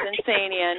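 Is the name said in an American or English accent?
American. The name is said in an American accent. The speaker calls it right. "it's Insania"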